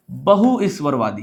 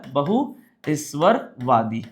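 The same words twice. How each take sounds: First: Said in the usual way. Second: Slow repeat. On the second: Shown as a demonstration. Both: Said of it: "क्या बोला?".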